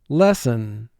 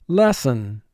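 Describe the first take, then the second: The two takes are said the same way.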